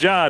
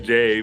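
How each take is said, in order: First: The name is said as one single syllable. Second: The name is spelled out as two letters. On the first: The speaker calls it right. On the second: The speaker calls it wrong.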